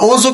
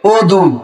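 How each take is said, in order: First: The middle consonant is a j sound. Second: The middle consonant is a d sound. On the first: This is the Urdu pronunciation. "অজু কিন্তু একটা উর্দু শব্দ।" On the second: This is the Arabic pronunciation. "আরবিতে যদি বলি তাহলে আমি এটা উচ্চারণ হবে ওদু।"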